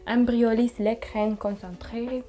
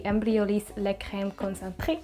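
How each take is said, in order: First: More careful French pronunciation, French r in Concentré; French accent, retried. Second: Imperfect attempt at French pronunciation; French product name in a loose French accent; poor French accent. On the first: Shown as a demonstration. Vlogger redoing the product name after a poor try, careful French accent. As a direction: have a better go at a French accent. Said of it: "not my best French accent". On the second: Real, not acted. Vlogger naming her moisturizer to viewers, not-so-good French accent. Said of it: "that was not my best French accent".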